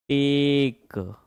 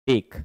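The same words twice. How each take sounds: First: टेक stretched very slowly, one long held vowel; drawn-out sounding out. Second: Said in the usual way. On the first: Shown as a demonstration. Teacher showing students how he learned to read, drawn-out sounding out. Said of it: "मैंने ऐसे पढ़ना सीखा है". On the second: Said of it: "इसको हम टेक बोलते हैं".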